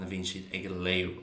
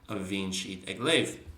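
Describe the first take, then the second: First: Léamh ends with an oo-like sound. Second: Léamh ends with a v-like sound.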